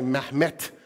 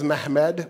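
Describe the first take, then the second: First: The name ends with a t sound. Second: The name ends with a d sound. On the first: This is how some Turks say it today. "some Turks now say Mehmet with a T" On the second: This is how the Turks said it back then. "but at the time it was Mehmed"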